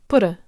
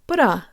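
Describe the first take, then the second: First: The stress is on the first syllable. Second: The stress is on the second syllable.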